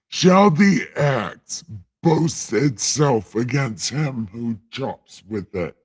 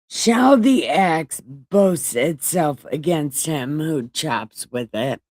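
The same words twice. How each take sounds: First: It is read in a put-on God voice. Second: It is read in a normal reading voice.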